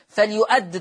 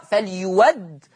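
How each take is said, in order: First: فليؤد with a glottal stop before the a; hamza kept. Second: فليود as "fal-yuwadd", no glottal stop; slow demo, hamza turned to w in فليود; hamza replaced by waw. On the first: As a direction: say فليؤد "fal-yu'add". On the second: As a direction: say a clear w in فليود. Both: Shown as a demonstration. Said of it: "فليؤد تقرأ فليود".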